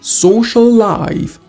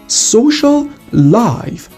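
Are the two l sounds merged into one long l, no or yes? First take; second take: yes; no. First: The l sounds merge into one long l. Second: The two l sounds are said separately.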